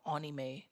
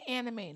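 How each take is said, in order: First: It is said with a Japanese-style pronunciation. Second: It is said with a plain English pronunciation. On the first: The speaker calls it wrong. "not anime" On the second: The speaker calls it right. "Just say anime"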